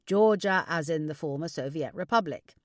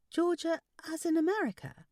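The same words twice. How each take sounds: First: Louder fatherly clarification; correcting father. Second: Much higher voice, querying AMERICA; high daughterly question; puzzled daughter. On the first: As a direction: correct her as a knowing father. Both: Acted.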